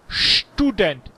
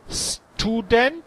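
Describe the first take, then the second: First: The word begins with an sh sound. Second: The word begins with a plain s sound. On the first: The speaker calls it right. "hay student. En inglés, shop" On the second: The speaker calls it wrong. "No hay student"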